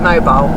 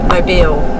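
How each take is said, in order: First: It is said like the everyday word mobile. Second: It is said the way the city's name sounds. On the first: This is how the spelling suggests it is read. The speaker calls it wrong. "looks like mobile" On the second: This is how the place name is actually said. The speaker calls it right. "but Mobile"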